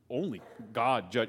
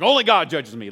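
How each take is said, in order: First: It is said fearfully, trembling. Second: It is said defiantly, with bravado.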